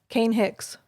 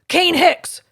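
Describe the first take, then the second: First: The name is said calmly without raising the voice. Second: The name is said loudly and harshly. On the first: The child knows something important follows. The speaker calls it right. "in that tone, I don't have to raise my voice" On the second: The child comes to hate his name. The speaker calls it wrong. "notice that I don't go Kane Hicks because then he hates his name"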